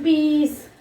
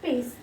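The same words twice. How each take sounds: First: PEACE with a long stretched ee; drawn-out vowel. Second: PEACE said short, softer and lower; short single syllable. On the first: Teacher showing children what not to say, PEACE drawn out. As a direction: stretch the middle of PEACE, peee-ce. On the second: Teacher giving children the correct form, PEACE short and soft. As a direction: say PEACE quickly as one short beat. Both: Shown as a demonstration. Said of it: "We are not saying peace".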